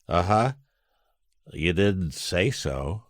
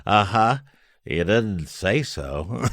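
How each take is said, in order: First: Slow, dry, lightly voiced Bob; a hint of Bob's deadpan, drawn out slow; Bob impression. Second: Slow, dry deadpan Bob voice; Bob impression. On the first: Telling how Bob answered at the Christmas party, slow dry Bob. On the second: Repeating Bob's punchline for the host, slow dry impression. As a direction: savour the line slowly like Bob. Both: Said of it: "Pretty good Bob, by the way".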